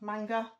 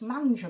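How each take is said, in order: First: The middle consonant is a hard g sound. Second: The middle consonant is a soft j sound. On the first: The speaker calls it right. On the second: The speaker calls it wrong.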